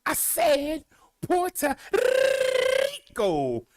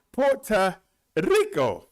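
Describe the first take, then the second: First: High, drawn-out call with a long trilled R in "Rico"; slow, high-pitched "Puerto Rico" with an extravagant trilled R; hugely rolled R. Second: Short rolled R in Rico; slow "Puerto Rico", lightly trilling the R in "Rico". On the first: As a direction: stretch the R of "Rico" into a long, showy roll. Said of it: "We can do better than that". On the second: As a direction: say "Rico" with a brief trilled R, slowly. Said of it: "It's time to roll that R". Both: Shown as a demonstration.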